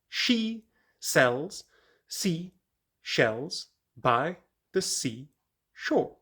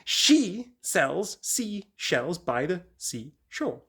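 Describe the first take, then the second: First: It is said at a slower, careful pace. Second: It is said at a quicker pace.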